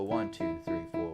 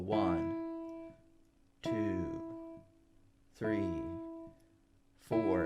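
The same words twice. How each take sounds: First: The numbers are counted quickly. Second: The numbers are counted slowly.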